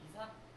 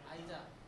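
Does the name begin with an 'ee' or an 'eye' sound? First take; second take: ee; eye. First: The name begins with an 'ee' sound. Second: The name begins with an 'eye' sound. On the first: This is how the toast brand name is read. "토스트는 이사" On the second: This is how the scientist's name is read. "뉴턴은 아이자"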